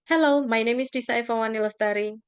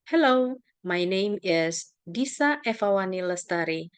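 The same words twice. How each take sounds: First: The name is rushed out quickly without pauses. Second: The name is said slowly with pauses. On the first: The speaker is overly familiar with the name. The speaker calls it wrong. "everybody tends to speak fast when they mention their names" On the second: The listener can catch the name. The speaker calls it right. "you might want to pause before your name or after your name"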